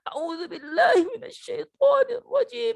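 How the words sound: It is said in a whimpering voice, like crying. "kayak orang menangis"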